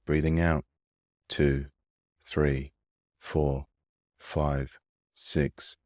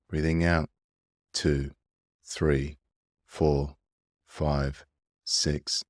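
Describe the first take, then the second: No difference in how they are said.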